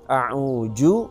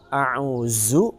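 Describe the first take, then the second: First: The middle consonant is a j sound. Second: The middle consonant is a z sound. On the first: "maka ini huruf ja" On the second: "maka ini huruf za"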